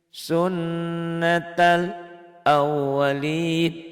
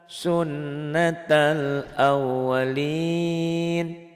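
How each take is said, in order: Both takes have the same delivery.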